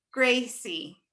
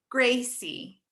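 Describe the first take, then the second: No difference in how they are said.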